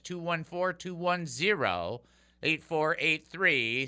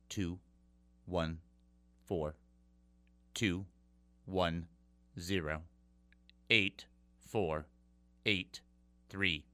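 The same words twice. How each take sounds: First: The number is read at normal speed. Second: The number is read slowly.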